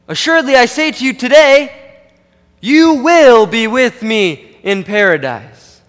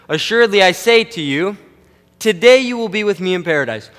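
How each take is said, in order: First: The pause comes after the word today. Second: The pause comes before the word today.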